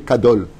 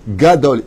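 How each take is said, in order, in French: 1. Le mot commence par un son K. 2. Le mot commence par un son G. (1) "Tu dis pas tu es Kadol" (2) "Tu dis Gadol"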